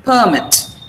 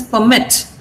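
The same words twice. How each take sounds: First: Permit said PER-mit, weight on the first syllable; noun stress. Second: Permit said per-MIT, weight on the second syllable; verb stress. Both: Shown as a demonstration. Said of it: "So that is permit".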